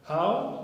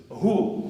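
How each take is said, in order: First: "how" with an ow vowel, pitched high; wrong question word. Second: "Who" with a long oo vowel, higher and louder; corrected pronunciation. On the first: Teacher voicing the wrong word for a person question, high questioning "how". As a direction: say "how?" high, rhyming with "now". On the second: Teacher correcting how to who for a person question, emphatic oo sound. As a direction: say "Who" firmly, rhyming with "too". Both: Shown as a demonstration. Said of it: "Pronunciation difference".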